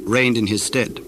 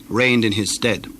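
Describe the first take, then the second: No difference in how they are said.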